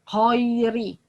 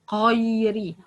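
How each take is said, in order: No difference in how they are said.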